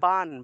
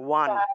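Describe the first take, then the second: First: It starts with a b, lips pressed together. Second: It starts with a w, lips not touching. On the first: This is the Bengali way of saying it. "ঠোঁট লাগিয়ে ব উচ্চারণ করতে হয়" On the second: This is the Sanskrit way of saying it. "ঠোঁট না লাগিয়ে বান উচ্চারণ করলে দেখবেন ওয়ান উচ্চারণটা আসে"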